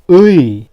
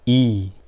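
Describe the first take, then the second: First: The vowel glides from 'u' to 'i'. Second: The vowel is a plain 'i' sound. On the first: "this is 의" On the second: "but we say just 이"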